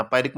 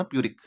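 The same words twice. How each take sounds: First: पायरिक said as "pie-rick", the wrong way; wrong pronunciation. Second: प्यूरिक said as "pyoo-rick", the right way; correct pronunciation. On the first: Teacher demonstrating the wrong reading to students, "pie-rick". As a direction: say पायरिक with a long "pie" opening, as the mistake to avoid. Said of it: "पायरिक मत पढ़ना". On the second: Teacher giving students the correct reading, "pyoo-rick". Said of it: "इसका pronunciation प्यूरिक पढ़ना". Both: Shown as a demonstration.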